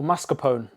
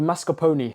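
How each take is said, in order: First: "mascarpone" ending in "pone", silent final e; alternative pronunciation. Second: "mascarpone" ending in a sounded "oh-nee"; alternative pronunciation. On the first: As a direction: say "mascarpone" in three syllables, mas-ka-PONE. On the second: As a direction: say "mascarpone" with four syllables, mas-ka-PO-nee. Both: Shown as a demonstration. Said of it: "not sure how to pronounce it".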